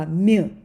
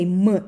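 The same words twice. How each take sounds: First: The m sound is soft, palatalized. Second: The m sound is hard, not palatalized. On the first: The speaker calls it right. "we make this consonant soft" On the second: The speaker calls it wrong. "We don't say m, ilka"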